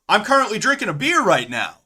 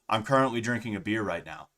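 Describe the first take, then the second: First: It is said with lively emotion and inflection. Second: It is said flat and deadpan, without emotion. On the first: "the way I think I'm saying that I'm drinking a beer is" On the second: "But really what it sounds like is"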